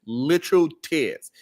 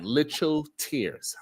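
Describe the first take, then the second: First: "Literal" slow and leaned on; stress on literal. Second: "literal" slowed and stressed. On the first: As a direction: punch "Literal" each time. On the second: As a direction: lean on "literal". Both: Real, not acted. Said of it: "I am not exaggerating".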